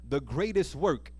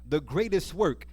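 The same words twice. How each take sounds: The two takes are said the same way.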